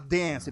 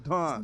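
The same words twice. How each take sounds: First: It is said with an American vowel. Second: It is said with a British vowel. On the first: "ele não fala dance" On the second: "o britânico ... fala dance"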